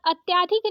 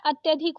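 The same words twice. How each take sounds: First: अत्याधिक with long aa after ty; wrong long आ. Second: अत्यधिक with short a after ty; correct short अ. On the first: Teacher showing the mistake, अत्याधिक with long aa. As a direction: stretch the vowel in -tyaa- of अत्याधिक. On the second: Teacher correcting it, अत्यधिक with short vowel. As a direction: keep -tya- short in अत्यधिक. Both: Shown as a demonstration. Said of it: "अत्याधिक नहीं होता है".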